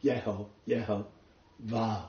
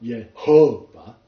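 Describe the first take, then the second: First: "Yeho, Yehovah." said slowly with the weight on the final "vah"; slow and soft, landing on "vah" in "Yehovah."; stress on the last syllable. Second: "Yehovah." said slowly with the stress on the middle syllable "ho"; wrong stress. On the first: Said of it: "The emphasis is on the last". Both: Shown as a demonstration.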